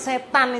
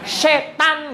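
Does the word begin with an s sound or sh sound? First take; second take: s; sh. First: The word begins with a plain s sound. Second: The word begins with a hushing sh sound. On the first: The speaker calls it wrong. "Enggak boleh jangan kok setan" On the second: The speaker calls it right. "Pakai shin itu. Setan gitu seharusnya"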